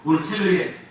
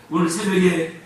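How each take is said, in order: Both takes have the same delivery.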